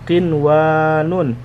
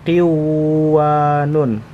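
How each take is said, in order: First: The n sound is pronounced clearly before w. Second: The n sound is dropped and merged into w. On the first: The speaker calls it right. "ini dibaca qinwanun" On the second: The speaker calls it wrong. "tidak boleh dibaca qiwanun"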